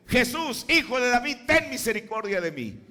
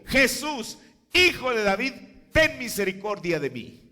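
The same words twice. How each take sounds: First: Higher and louder, calling out to Jesus; rising cry for mercy. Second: Higher and louder, a cry from the roadside; shouted plea. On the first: Preacher voicing Bartimaeus crying out to Jesus, loud pleading call. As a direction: cry out for mercy like the blind man. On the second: Bartimaeus shouting to Jesus in Jericho, loud pleading cry. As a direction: call out to Jesus for mercy. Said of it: "gritó y dijo". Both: Retold or imitated.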